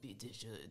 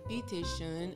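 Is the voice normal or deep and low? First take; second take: deep; normal. First: It is said in a deep, low voice. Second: It is said in a normal voice.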